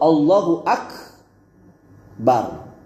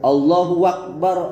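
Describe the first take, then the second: First: No w sound comes before Akbar. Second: A w sound is added before Akbar. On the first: The speaker calls it right. "Jadi yang benar itu" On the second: The speaker calls it wrong. "ini yang disebut waw al-israq"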